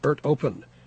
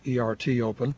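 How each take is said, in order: First: ERT is pronounced the Greek way. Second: ERT is pronounced the English way. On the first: The speaker calls it right. "is pronounced ERT open, ... it's in Greek and not English" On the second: The speaker calls it wrong. "not ERT open"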